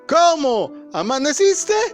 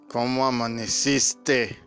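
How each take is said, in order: First: It is said in a fed-up, irritated tone. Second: It is said in a flat, tired tone. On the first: The couple is sick of each other. "ya están hartos el uno del otro" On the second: The relationship has worn down. "se desgasta la relación cuando no tienes cuidado"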